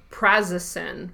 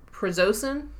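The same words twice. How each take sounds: First: "prazosin" stressed on the first syllable, PRAZ-uh-sin; first pronunciation attempt. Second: "prazosin" stressed in the middle, pruh-ZOH-sin, rising; questioning second attempt. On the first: Reading the recommended amount, "prazosin" as PRAZ-uh-sin. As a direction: say "prazosin" with a short open first vowel. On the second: Unsure of the medicine name, "prazosin" as pruh-ZOH-sin. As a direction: try "prazosin" with a long O, as a question. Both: Real, not acted. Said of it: "I think it said prazosin".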